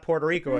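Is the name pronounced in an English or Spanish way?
English. The name is said with English pronunciation. The speaker calls it wrong. "no, it's not Puerto Rico"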